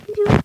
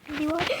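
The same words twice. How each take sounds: First: Loud higher startled yell; alarmed shout. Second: Said in the usual way. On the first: Real, not acted.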